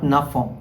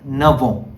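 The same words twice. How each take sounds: First: The two words are said separately, without linking. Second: The two words are linked into one sound. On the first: The speaker calls it wrong. "not neuf ans" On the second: The speaker calls it right.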